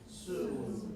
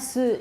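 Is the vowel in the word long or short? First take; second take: long; short. First: The vowel is held long and rounded. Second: The vowel is clipped short and quick. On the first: The speaker calls it right. "Make oo really long and very oo" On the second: The speaker calls it wrong. "Not su"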